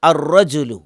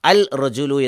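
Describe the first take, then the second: First: The l merges into a doubled next consonant. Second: The l is pronounced before the next consonant. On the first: The speaker calls it right. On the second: The speaker calls it wrong.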